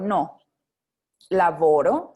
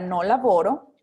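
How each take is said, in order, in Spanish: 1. Hay una pausa después de la primera palabra. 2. Las palabras se dicen juntas, sin pausa. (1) "Pero si yo digo no, laboro" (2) "Y ahí sí va seguido"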